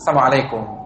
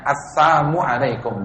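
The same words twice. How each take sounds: First: It is said quickly and blurred. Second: It is said slowly and clearly.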